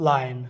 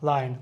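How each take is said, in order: The two takes are said the same way.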